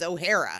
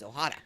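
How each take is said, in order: First: The name is pronounced as an Irish surname. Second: The name is pronounced as a non-Irish surname. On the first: The name is taken to be Irish. The speaker calls it wrong. "why aren't you Irish? Your name is O'Hara" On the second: The name is not Irish. The speaker calls it right. "my name is Ohara"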